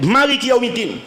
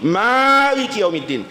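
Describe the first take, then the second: First: The first vowel of the first word is short. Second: The first vowel of the first word is long. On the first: The word is read as a descriptive adjective. "dibaca pendek" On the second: The word is read as an active participle. "dia pakai mat tabi'i"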